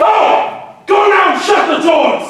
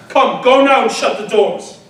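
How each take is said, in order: First: High, loud command; screamed order, far higher than before; furious shout. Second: Firm order, a little raised; stern but controlled dismissal; firm command. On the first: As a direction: drive her out with a roar. Ajax orders wife out. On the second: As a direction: send them off with authority. Orders women out. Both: Acted.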